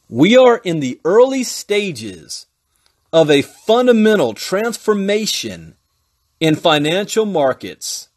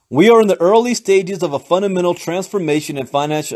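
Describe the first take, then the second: First: It is read a little more slowly. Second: It is read at normal speed.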